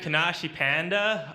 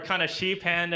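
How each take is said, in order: First: The name is pronounced in an English way. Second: The name is pronounced in a Japanese way.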